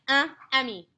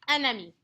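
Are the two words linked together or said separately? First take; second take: separately; linked. First: The two words are said separately, not linked. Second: The two words are pushed together, linked. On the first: The speaker calls it wrong. "if I didn't push them together, it'd be like un ami" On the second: The speaker calls it right. "the second one sounds better, sounds more French"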